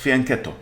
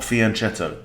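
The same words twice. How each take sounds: First: The middle consonant is a 'k' sound. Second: The middle consonant is a 'ch' sound. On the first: The speaker calls it right. "It's fianchetto" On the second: The speaker calls it wrong. "It's not fianchetto"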